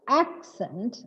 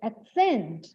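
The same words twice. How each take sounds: First: The stress is on the first syllable. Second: The stress is on the second syllable. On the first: The word is used as a noun. "When the word is used as a noun" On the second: The word is used as a verb. "There is a change in the stress. Stress shift is there"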